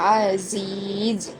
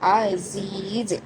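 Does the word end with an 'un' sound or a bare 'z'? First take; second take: z; z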